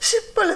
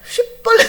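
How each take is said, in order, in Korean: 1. 이 단어는 보통 s 소리로 시작해요. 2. 이 단어는 sh 소리로 시작해요. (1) "쉿볼렛 한 거예요" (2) "쉿볼렛 해야 되는데"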